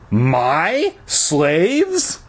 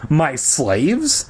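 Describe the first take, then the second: First: The stress is on the word my. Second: It is said plainly with no special stress.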